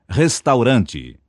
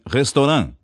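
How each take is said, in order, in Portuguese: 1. Ela é dita como uma palavra portuguesa. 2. Ela é dita como uma palavra francesa. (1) "A palavra é vernácula" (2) "pronunciando-a como palavra francesa"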